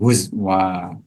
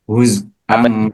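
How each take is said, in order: First: A w sound follows the z. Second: A glottal stop follows the z. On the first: The reader stops on this word. "ibdalul hamzati wawan" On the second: The reader continues into the next word. "Wa iskani zayi ma'al hamzati waslan kan"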